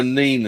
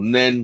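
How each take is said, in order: First: "Nene" with a long ee, like "neen"; long-vowel Nene. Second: "Nen" with a short e, like "nen"; short-vowel Nen. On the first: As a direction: say "Nene" to rhyme with "seen". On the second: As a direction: say "Nen" to rhyme with "ten". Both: Shown as a demonstration. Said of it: "'cause I was in Northampton".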